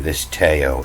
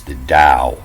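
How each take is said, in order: First: Tao said as TAY-oh; spelling pronunciation. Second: Tao said as DOW; corrected pronunciation. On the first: Explaining to viewers how Tao is spelt, Tao read as TAY-oh. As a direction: say "Tao" as two syllables, TAY-oh. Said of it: "the pronunciation of this Tao". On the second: Teaching viewers the pronunciation, Tao said as DOW. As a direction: say "Tao" as one syllable with a D, DOW. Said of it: "pronunciation of this Tao is". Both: Shown as a demonstration.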